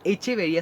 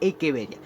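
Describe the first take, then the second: First: The second consonant is a 'ch' sound. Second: The second consonant is a 'k' sound. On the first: The speaker calls it wrong. "no sería echeveria" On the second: The speaker calls it right. "en la botánica la ch pronuncia k"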